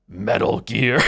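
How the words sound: It is said in a Cookie Monster impression.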